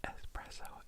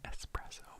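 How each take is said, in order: First: The word starts with an 'ess' sound. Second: The same.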